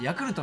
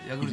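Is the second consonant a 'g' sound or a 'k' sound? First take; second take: k; g. First: The second consonant is a voiceless k sound. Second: The second consonant is a voiced g sound. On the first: The speaker calls it right. "ヤクルトのことを" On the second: The speaker calls it wrong. "ヤグルトって言うんですよ"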